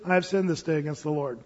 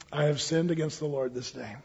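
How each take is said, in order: First: Low, soft, simple admission; acted quiet repentance, low-voiced; understated confession. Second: Soft, low admission of guilt; acted humbled king, hushed and low; subdued confession. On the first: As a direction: own up quietly without display. David's plain confession set against Saul's. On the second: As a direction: confess quietly and simply. Acts David's subdued confession.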